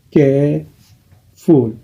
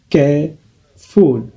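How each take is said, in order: First: "Careful" said again very slowly and evenly; slow repeat. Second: "careful" said very slowly; slow model word. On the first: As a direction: stretch out "Careful" once more. ("Careful" répété très lentement) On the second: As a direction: stretch out "careful" for learners. ("careful" prononcé très lentement) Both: Shown as a demonstration. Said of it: "deux syllabes".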